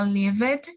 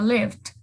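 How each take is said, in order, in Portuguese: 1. O D final é totalmente sonoro e forte. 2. O D final é fraco, quase como um T. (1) "ao invés de falar lived" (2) "som do D bem suave, como se fosse um T"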